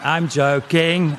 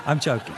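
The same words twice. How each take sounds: First: "joking" stretched slowly and loudly; emphatic. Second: Said in the usual way. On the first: Acted. Comic reassuring crowd after an insult, "joking" loud and drawn out. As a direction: drag out both syllables of "joking".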